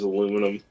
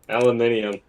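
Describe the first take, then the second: First: It has four syllables, American style. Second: It has five syllables, non-American style.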